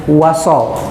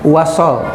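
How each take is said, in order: No difference in how they are said.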